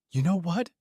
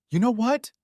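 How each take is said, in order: First: Screaming. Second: Shrieked, high and loud; screaming. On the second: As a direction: scream it at full pitch. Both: A narrator's reading. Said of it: "she screamed".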